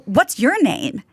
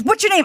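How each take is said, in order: First: "What's your name?" turned back with weight on YOUR; retold comeback stressing the word "your". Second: Said in the usual way. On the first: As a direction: lean on "your", fully pronounced. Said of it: "And I go". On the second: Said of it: "He goes".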